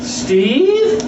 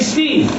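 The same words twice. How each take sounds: First: The pitch rises on the name. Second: The pitch stays flat on the name. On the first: It sounds like a question, like a telemarketer. The speaker calls it wrong. "when you say something with a rising tone, it's like a question" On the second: It sounds like a plain, confident greeting. The speaker calls it right.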